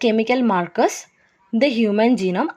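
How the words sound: There is a pause after 'markers'. The speaker calls it wrong. "അവിടെ ഒരു break വരൽ"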